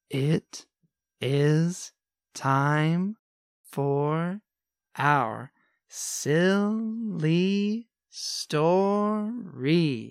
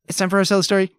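First: It is said very slowly. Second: It is said very quickly.

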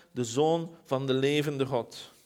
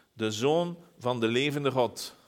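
Both takes have the same delivery.

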